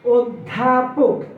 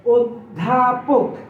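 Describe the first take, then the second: Both takes have the same delivery.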